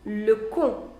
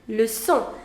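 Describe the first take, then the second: First: The c is pronounced as a hard k. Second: The c is pronounced as a soft s. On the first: The speaker calls it wrong. "So it is not pronounced as le con" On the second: The speaker calls it right. "you pronounce it as leçon"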